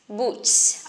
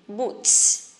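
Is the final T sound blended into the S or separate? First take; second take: blended; blended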